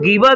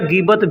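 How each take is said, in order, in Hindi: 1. यह शब्द स्वर की आवाज़ से खत्म होता है। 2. यह शब्द 't' की आवाज़ से खत्म होता है। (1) "गीबा भी बोल सकते हैं" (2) "या गीबत भी बोल सकते हैं"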